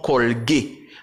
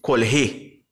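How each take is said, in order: First: The middle consonant is a hard g sound. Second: The middle consonant is a breathy h sound. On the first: "son colgué" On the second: "il t'a prononcé colhé"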